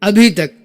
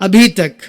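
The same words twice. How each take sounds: Both takes have the same delivery.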